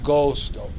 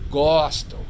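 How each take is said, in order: First: The O vowel is pronounced closed. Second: The O vowel is pronounced open. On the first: The speaker calls it wrong. "not gosto" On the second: The speaker calls it right. "An open O"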